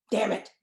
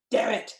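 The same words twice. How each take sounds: The two takes are said the same way.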